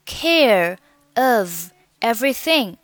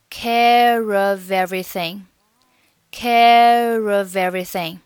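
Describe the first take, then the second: First: "Care of everything" in three separate words. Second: "care of everything" joined end to start without gaps; linked pronunciation. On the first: Teacher naming three words, "Care of everything" said separately. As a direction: leave a clear gap after "Care" and after "of". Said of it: "三个单词". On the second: Teacher demonstrating linking, "care of everything" run together. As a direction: carry r into "of" and v into "everything". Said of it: "连读成". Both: Shown as a demonstration.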